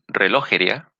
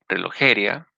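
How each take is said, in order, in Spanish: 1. El acento está en la segunda sílaba, lo. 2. El acento está en la tercera sílaba, je. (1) "en la O" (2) "o en la E"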